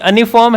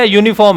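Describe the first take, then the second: First: The word begins with a plain vowel sound. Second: The word begins with a 'y' sound. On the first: The speaker calls it wrong. "अनिफॉर्म है या यूनिफॉर्म है?" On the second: The speaker calls it right. "गिना जा सकता है यूनिफॉर्म को"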